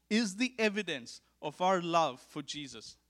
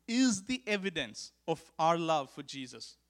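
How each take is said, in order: Both takes have the same delivery.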